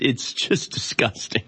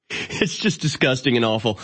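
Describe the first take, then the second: First: Whispered slowly in disgust. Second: Said in the usual way. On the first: Real, not acted. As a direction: breathe it out, sickened. Disgust, then said again plainly.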